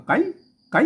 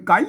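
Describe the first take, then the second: First: ไก่ cut short and abrupt; short Lampang pronunciation. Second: ไก่ with a long, drawn-out vowel; long Chiang Mai pronunciation. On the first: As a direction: say ไก่ with a brief vowel, Lampang style. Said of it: "ลำปางพวกอาจเสียงห้วนๆหน่อย". (ออกเสียง ไก่ สั้นห้วนแบบลำปาง) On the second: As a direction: stretch ไก่ out, Lanna Chiang Mai style. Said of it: "บนยาวนะครับ". (ลากเสียง ไก่ ยาวแบบล้านนาเชียงใหม่) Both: Shown as a demonstration.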